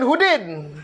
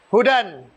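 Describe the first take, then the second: First: The word ends with an 'i' vowel. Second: The word ends with an 'a' vowel. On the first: The speaker calls it wrong. "Bukan Hudin" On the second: The speaker calls it right. "Dibaca alif"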